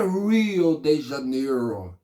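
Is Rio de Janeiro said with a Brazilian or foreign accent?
foreign. It is said with a foreign, English-like accent. This is how foreigners usually say the city's name. The speaker calls it wrong. "não é Rio de Janeiro"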